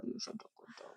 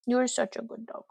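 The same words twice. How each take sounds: First: Soft whispered praise for the dog. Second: Said in the usual way. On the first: Real, not acted. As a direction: whisper You're such a good dog to the pet. Praising dog, whispered then voiced.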